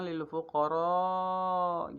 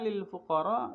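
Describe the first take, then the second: First: The final vowel of fuqara is long. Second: The final vowel of fuqara is short. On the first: The speaker calls it right. "Harusnya panjang" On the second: The speaker calls it wrong. "dengan bacaannya pendek gitu"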